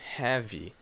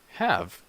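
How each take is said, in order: First: The word ends with an added vowel sound. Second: The word ends cleanly on the consonant sound. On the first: The speaker calls it wrong. "you don't say" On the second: The speaker calls it right. "You only have the consonant sound"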